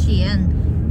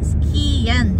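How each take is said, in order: First: The K is softened, not a plain K. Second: The K is sounded as a plain hard K. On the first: The speaker calls it right. "it's Skien, because the K is followed by letter I" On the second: The speaker calls it wrong. "It's not Skien"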